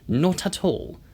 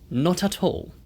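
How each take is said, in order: The two takes are said the same way.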